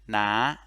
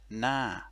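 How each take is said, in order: First: The syllable is said with a rising tone. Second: The syllable is said with a falling tone. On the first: "a rising tone" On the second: "a falling tone"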